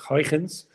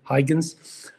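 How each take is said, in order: First: The name is said with Dutch sounds. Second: The name is said with English sounds.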